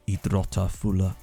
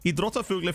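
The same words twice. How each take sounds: First: The word is drawn out slowly. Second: The word is rattled off quickly. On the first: The speaker calls it wrong. "I'll say it really slowly" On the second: The speaker calls it right. "I have to say it fast"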